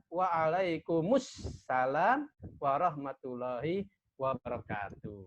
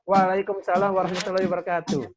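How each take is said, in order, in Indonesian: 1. Vokal u menghubungkan kum ke salam. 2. Kum langsung menyambung ke salam tanpa vokal. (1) "yang benar adalah" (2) "kalian sering mengucapkan"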